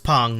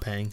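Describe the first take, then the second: First: The name is said with an 'ong' vowel. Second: The name is said with an 'ang' vowel. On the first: The speaker calls it right. "it's Pong" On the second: The speaker calls it wrong. "not Pang"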